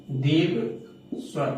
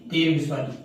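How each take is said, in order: First: दीर्घ स्वर stretched slowly, each vowel held long; drawn out. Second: Said in the usual way. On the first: Shown as a demonstration. Teacher stretching दीर्घ स्वर for students. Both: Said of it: "खींच के बोलने पे ही वो दीर्घ हो जाता है".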